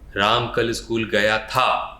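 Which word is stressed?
था. The word था is stressed.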